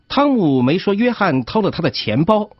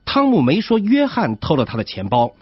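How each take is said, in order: First: The stress falls on the word 钱包. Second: The stress falls on the word 约翰. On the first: Something other than the wallet was stolen. "他的意思是约翰没偷钱包，但是偷了别的东西" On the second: Someone other than John stole it. "这种读法的意思是钱包不是约翰偷的，是别人偷的"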